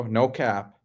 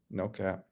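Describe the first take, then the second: First: Said in the usual way. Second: Dropped way down to a near-mutter; a quiet echo to himself; much softer repeat. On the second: Shown as a demonstration. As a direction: throw it away under your breath. Echoing a chat phrase twice.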